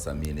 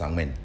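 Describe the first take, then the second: First: The name is said as Samini. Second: The name is said as Sangmen. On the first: This is an outside corruption of the name. The speaker calls it wrong. "that name is not Samini" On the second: This is the name in its own language. The speaker calls it right. "it's Sangmen"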